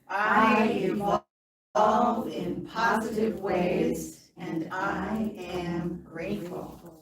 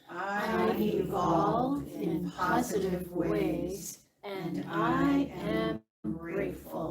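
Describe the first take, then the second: First: It is said with lots of energy. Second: It is said with calm, low energy.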